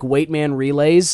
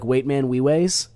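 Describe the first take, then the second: First: The R sounds are pronounced as normal R sounds. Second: The R sounds are replaced by W sounds. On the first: "instead of saying like" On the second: "you don't say R's, you like instead say W's"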